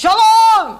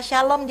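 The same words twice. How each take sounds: First: Shalom! barked much higher and much louder; military father shouting the greeting; father's booming shalom. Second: Said in the usual way. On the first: Retold or imitated. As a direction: blast the greeting like a stern army father. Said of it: "Begitu kerasnya suara dia". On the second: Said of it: "Kalau kita bicara shalom".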